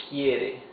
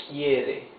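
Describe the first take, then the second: The two takes are said the same way.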